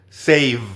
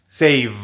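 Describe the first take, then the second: Both takes have the same delivery.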